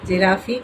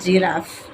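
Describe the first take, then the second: First: An extra vowel sound follows the final f. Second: The word ends cleanly on the f sound. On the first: The speaker calls it wrong. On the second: The speaker calls it right.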